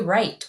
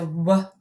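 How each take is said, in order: First: No w sound is voiced before the r. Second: A w sound is voiced before the r. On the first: The speaker calls it right. "We say right. We only hear the R" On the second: The speaker calls it wrong. "We do not hear the W. We don't say"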